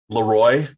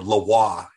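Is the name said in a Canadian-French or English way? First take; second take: English; Canadian-French. First: The name is said with English pronunciation. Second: The name is said with Canadian-French pronunciation.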